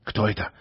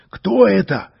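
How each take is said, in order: First: Soft curious question. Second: Higher, louder excited question; eager question. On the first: An onlooker quietly wonders who he is. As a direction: murmur it, wondering. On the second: An onlooker loudly demands who he is. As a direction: call out, eager to know. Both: Acted. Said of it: "интересовались зрители".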